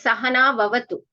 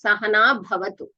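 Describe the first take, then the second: First: The syllable is said with a soft v sound. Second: The syllable is said with an aspirated bh sound. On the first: The speaker calls it right. "It is Sahana Vavatu" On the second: The speaker calls it wrong. "It's not Sahana Bhavatu"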